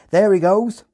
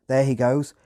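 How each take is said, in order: First: High, loud Hampshire farmer shout; loud rural Hampshire accent. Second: Said in the usual way. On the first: Retold or imitated. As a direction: yell it like a Hampshire farmhand. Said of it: "in a thick Hampshire accent". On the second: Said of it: "translate ... into British Standard English".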